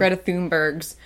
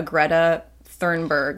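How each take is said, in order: First: "Thunberg's" with a THOON first syllable; corrected name pronunciation. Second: "Thunberg" with a THURN first syllable; unsure name pronunciation. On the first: Host copying the co-host's correction, "Thunberg's" said THOON-bergs. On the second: Host unsure of the activist's name, "Thunberg" said THURN-berg. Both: Real, not acted. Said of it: "Is that how you say her name?".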